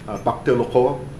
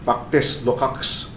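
First: The name is said in French style. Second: The name is read out as spelled. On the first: "Yun ang pronunciation na" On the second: "pero pagka-pronounce natin"

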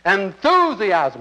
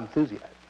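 First: The word is said with lively, excited energy. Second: The word is said flatly, without much energy. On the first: The speaker calls it right. "you must be enthusiastic every time you say that word" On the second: The speaker calls it wrong. "not enthusiasm"

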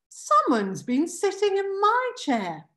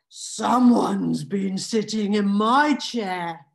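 First: It is said in a plain Mama Bear voice. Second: It is said in a growling Papa Bear voice.

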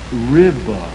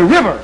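First: The word is drawn out slowly without the r. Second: The word is said quickly with a crisp r. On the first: The listener's Southern region has a slower way of life. "your language has become slower. So for you, the word would not be river, but" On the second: The speaker's own region has a faster way of life. "our language has become faster. So we would say river"

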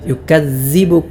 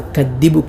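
First: The middle consonant is a z sound. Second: The middle consonant is a d sound. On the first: "സാൽ പോലെയും ഉച്ചരിക്കാറുണ്ട്" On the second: "പലരും ദാലായി"

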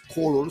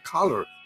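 First: The word is pronounced the Spanish way. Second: The word is pronounced the English way. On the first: The speaker calls it wrong. "Color no es color" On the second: The speaker calls it right. "sino color"

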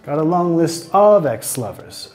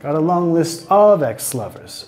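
First: The stress is on the word of. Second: The same.

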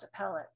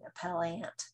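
First: The word is said in a reduced, casual form. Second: The word is said in a careful, emphasized form. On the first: This is how people normally say it. "appellant is usually pronounced appellate" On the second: This is exaggerated to show the difference. "when I emphasize it, I don't want you to think people really walk around saying appellant"

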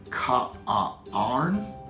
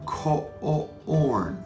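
First: The vowel is stretched out as 'ar'. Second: The vowel is stretched out as 'or'. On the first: The speaker calls it wrong. "let's sound out corn using AR and OR" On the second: The speaker calls it right. "I definitely hear the O-R sound"

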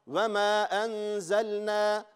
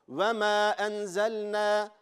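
No difference in how they are said.

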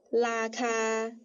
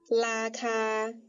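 Both takes have the same delivery.

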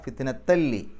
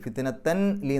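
First: The n merges into a doubled l sound. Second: The n sound is pronounced before li. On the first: The speaker calls it right. "ലാമിന് ഷെദ് കൊടുത്തിട്ട് ലി എന്ന് പറയാം" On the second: The speaker calls it wrong. "ഫിത്നത്തൻ ലി എന്നല്ല"

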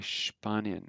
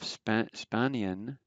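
First: The word begins with a sh sound. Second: The word begins with a plain s sound. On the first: "they say Spanien, SHP" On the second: "Instead of Spanien"

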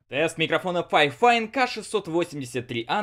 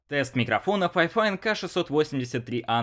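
First: The voice is recorded far away, spoken louder. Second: The voice is recorded at a moderate distance. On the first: "на расстоянии один метр. Говорю уже громче обычного" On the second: "на расстоянии тридцать сантиметров"

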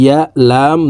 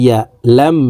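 No difference in how they are said.

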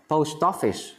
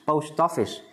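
No difference in how they are said.

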